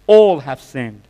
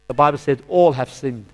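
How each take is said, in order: First: All have sinned thundered louder, ALL hit hard; emphatic repeat. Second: Said in the usual way. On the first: Real, not acted. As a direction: hammer home ALL like a preacher's verdict.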